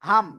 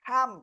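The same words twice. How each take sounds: First: The h is a plain, light h sound. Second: The h is breathy, pushed from a tightened throat. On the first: The speaker calls it wrong. "Simple বাংলায় এরকম উচ্চারণ করি ... এটা উচ্চারণ টোটালি রং" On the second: The speaker calls it right. "গলাটা চেপে মুখ দিয়ে হালকা বাতাস বের করে উচ্চারণ করতে হবে"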